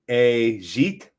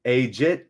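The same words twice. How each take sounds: First: Ajit as "ay-ZHEET", second syllable rising; tentative pronunciation. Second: Ajit as "AY-jit", with a hard j; second pronunciation try. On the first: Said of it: "Am I saying that right?". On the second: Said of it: "like that". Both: Shown as a demonstration.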